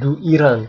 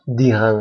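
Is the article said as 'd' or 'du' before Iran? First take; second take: du; d. First: A full 'du' is said before Iran. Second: Only 'd' is said, joined to Iran. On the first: The speaker calls it wrong. "Bukan du Iran" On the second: The speaker calls it right. "tapi dihan saja"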